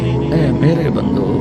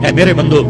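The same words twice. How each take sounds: First: It is said in a tender, loving tone. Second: It is said in a plain, unaffectionate tone. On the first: The speaker calls it right. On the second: The speaker calls it wrong.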